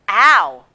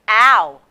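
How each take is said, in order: First: The sound is said in a high, thick voice. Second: The same.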